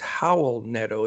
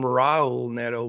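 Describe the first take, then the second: First: The first name begins with an H sound. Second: The first name begins with an English R sound. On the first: The speaker calls it right. "it's Howell Neto. It's the R's are pronounced like H's" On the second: The speaker calls it wrong. "I was always called him Raul Neto"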